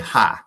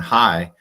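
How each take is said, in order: First: It is said in an Eastern Kentucky accent. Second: It is said in a general American accent. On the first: "people in Eastern Kentucky, like my sister, ... she'll say" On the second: "instead of saying"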